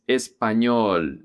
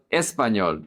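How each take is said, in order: First: Español slowly, leaning on the final ñol; es-pa-ÑOL, last syllable stretched; stress on ÑOL. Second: Español stressed early, not on ñol; misplaced stress. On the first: Teacher correcting the emphasis, español stressed on ñol. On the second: Teacher showing learners what to avoid, español wrongly stressed. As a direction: say español with the emphasis off the last syllable. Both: Shown as a demonstration. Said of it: "emphasis is on the ñol".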